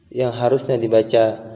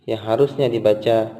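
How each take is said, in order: Both takes have the same delivery.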